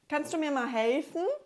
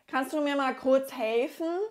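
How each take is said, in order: First: It sounds friendly and polite. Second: It sounds rude and impatient.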